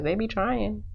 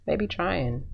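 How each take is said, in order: First: Sassy aside. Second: Said in the usual way. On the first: Real, not acted. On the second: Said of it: "'cause they be trying".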